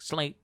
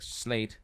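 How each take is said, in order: First: Impatient repeat. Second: Said in the usual way. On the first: Retold or imitated. She repeats, insisting after "Excuse me.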